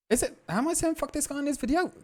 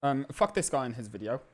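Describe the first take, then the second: First: Very high mock voice of himself; mocking squeaky voice. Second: Said in the usual way. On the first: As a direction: parody your own line, pitched way up. Mocking his own words.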